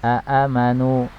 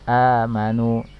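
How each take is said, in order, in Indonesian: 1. Dua suku kata berhamzah membuka kata ini. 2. Vokal pertama cukup dipanjangkan. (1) "asalnya dari kata aamanu ya" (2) "tetapi bacanya menjadi amanu"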